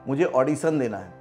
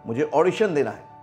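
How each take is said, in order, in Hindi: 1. ऑडिशन को सादे 's' ध्वनि के साथ बोला जाता है। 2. ऑडिशन को 'sh' ध्वनि के साथ बोला जाता है। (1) "ऑडिशन तो सा आ गया" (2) "जबकि होना क्या था"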